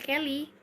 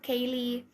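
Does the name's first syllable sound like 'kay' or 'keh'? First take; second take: keh; kay. First: The first syllable has a short 'eh' vowel. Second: The first syllable has an 'ay' vowel. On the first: This is the reading most people now use. "ya udah dipanggilnya Kelly" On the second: This is the name's original reading. "dulu tuh di- nah dibacanya tuh Kaylee"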